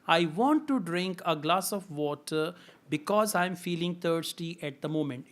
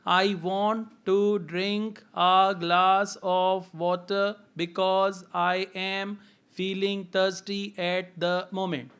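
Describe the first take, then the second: First: The words flow together without breaks. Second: Each word is spoken separately with breaks. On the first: "sentence by sentence" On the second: "word by word"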